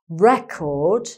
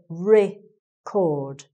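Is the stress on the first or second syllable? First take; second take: first; second. First: The stress is on the first syllable. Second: The stress is on the second syllable. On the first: It is the thing itself, a noun. "eh, the eh sound" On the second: It is the action, a verb. "I. It becomes an I sound here"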